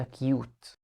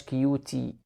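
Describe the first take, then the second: First: "كيوت" said with no sound after the t; silent final e. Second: "كيوتي" said with the final e sounded, ending in -ee; wrong final e. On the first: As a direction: stop dead on the t of "كيوت". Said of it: "قلنا". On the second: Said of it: "ما قلناش". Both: Shown as a demonstration.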